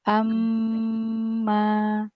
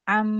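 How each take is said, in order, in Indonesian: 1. Hamzah di awal kata lembut dan ringan. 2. Hamzah di awal kata ditekan dan berat. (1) "Ringankan hamzahnya. tapi amma" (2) "Jangan am"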